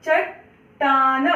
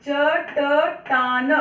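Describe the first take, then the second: First: चट्टान said slowly, first ट cut short with no vowel; teacher drawing out चट्टान with the ट clipped; half ट, no vowel. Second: चटटान very slow, each ट given its full vowel; full ट, wrong way. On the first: Teacher shows pupils चट्टान with a clipped half ट. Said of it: "ट पूरा नहीं बोला है मैंने". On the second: Teacher shows pupils the wrong चटटान with a full ट. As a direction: stretch चटटान out as च-ट-टान. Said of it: "अगर मैं पूरा बोलूंगी तो कैसा हो जाएगा". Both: Shown as a demonstration.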